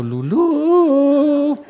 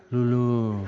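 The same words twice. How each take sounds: First: High, loud, long howl of "Lulú"; hammed-up yell, leaping up in pitch; mock madman's scream. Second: Imitated drugged murmur of "Lulú"; sedated patient. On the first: Retold patient strapped to a board, screaming. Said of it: "y todo y gritando". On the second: Retold medicated patient dreaming under anesthesia, mumbling. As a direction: call it out limply, as if half asleep. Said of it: "entre sus sueños y anestesia".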